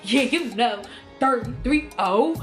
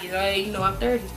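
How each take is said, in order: First: It is said loudly and proudly. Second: It is said quietly and timidly.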